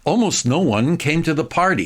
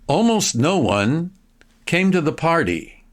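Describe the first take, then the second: First: The sentence is read at a fast pace. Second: The sentence is read at a slow pace. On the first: "more quickly" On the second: "first slowly"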